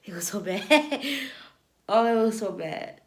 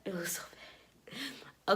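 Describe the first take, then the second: First: Amused, laughing repeat. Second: Slow whispered repeat; whispering. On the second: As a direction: whisper it slowly. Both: Real, not acted.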